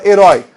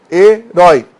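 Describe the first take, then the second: First: Said in the usual way. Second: "Herói" split as he, rói, both loud; syllable by syllable. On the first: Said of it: "Pensa na palavra herói". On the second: Shown as a demonstration. Teacher showing the final open diphthong, syllable by syllable. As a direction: punch each half of "Herói" separately. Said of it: "terminada em ditongo aberto".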